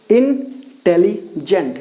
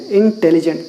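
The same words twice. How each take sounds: First: इंटेलिजेंट very slowly in three parts, इन, टेली, जेंट; split into syllables. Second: Said in the usual way. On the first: Shown as a demonstration. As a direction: pause between each chunk of इंटेलिजेंट. (इंटेलिजेंट को धीरे-धीरे तीन खंडों में तोड़कर) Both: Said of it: "तीन सिलेबस हो गया".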